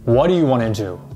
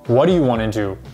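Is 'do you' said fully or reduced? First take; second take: reduced; reduced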